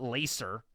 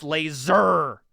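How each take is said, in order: First: The middle consonant is a hissing s sound. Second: The middle consonant is a buzzing z sound. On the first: The speaker calls it wrong. "not laser" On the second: The speaker calls it right. "it's laser with a Z, because that's how it's pronounced"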